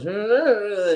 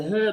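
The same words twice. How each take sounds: First: Drunk [name] impression, pitched up; a quick hammed-up [name] "Hey". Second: Said in the usual way. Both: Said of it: "talking like [name]".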